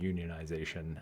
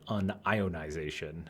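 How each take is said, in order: First: The word starts with the word 'union'. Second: The word starts with 'un' followed by 'ion'. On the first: "a plumber would pronounce it unionization uh, in the sense of a you know a social union" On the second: "a physicist would pronounce it"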